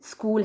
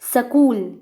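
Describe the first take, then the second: First: The word opens with a tight s-k cluster. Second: An extra vowel breaks up the opening s-k cluster. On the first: The speaker calls it right. "स्कूल है" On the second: The speaker calls it wrong. "स्कूल को सकूल बोलते हैं"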